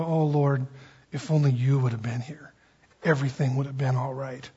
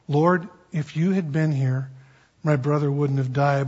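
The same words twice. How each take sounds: First: Soft, lower, tender lament; broken-hearted plea. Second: Said in the usual way. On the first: Retold or imitated. Preacher voicing Mary's grieving plea at Jesus' feet, softer and lower. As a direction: let it fall quietly like grief, not anger. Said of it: "it was more of a". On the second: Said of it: "Same exact words".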